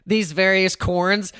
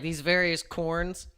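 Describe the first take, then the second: First: "corns" said slowly for coins; mocking Cramer's corns. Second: "corns" quoted quietly, slow with a rise; quiet slow echo of "corns"; imitating Cramer. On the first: Repeating Cramer's slip to viewers, slow and amused. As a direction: drawl "These various corns" slowly. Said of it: "I love that he said corns". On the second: Quoting Cramer's slip for his chat, soft and slow. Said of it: "He's like".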